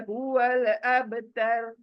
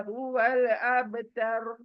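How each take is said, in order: Both takes have the same delivery.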